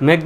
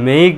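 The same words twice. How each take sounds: First: মেক said short, a single "e" vowel. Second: মেইক lengthened into an "ei" glide; long vowel. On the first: Teacher asks if it got shorter, short মেক. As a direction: keep the vowel in মেক brief. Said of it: "একটু ছোট হয়ে গেল না". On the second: Teacher shows how it gets longer, long-vowel মেইক. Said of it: "লম্বা হয়ে গেল". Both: Shown as a demonstration.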